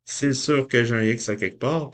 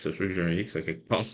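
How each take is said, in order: First: Said in the usual way. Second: Quick mutter. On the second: Real, not acted.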